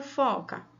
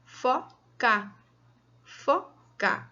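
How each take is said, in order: First: Said in the usual way. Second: "fo", pause, "ca"; syllable by syllable. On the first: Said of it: "Ela tá escrita inteira". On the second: Shown as a demonstration. Teacher dividing a word for children, syllable by syllable. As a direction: split "foca" into two separate beats. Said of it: "Então, eu dividi ela".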